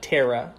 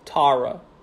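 First: The name is said in a Minnesota accent. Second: The name is said in a New York accent. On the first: The speaker calls it wrong. "that's how I would say it if I was in Minnesota" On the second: The speaker calls it right. "how would I say it if I was in New York?"

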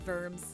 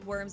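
First: The name begins with a V sound. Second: The name begins with an English W sound. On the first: The speaker calls it right. "but it's actually Worms" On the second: The speaker calls it wrong. "It's like Worms"

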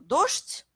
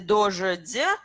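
First: The final consonants are voiceless, with no vowels. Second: The final consonants are voiced, with added vowels. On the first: The speaker calls it right. "ça se prononce beaucoup plus facilement" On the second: The speaker calls it wrong. "juste essayer de prononcer dojedi, qui n'est pas possible"

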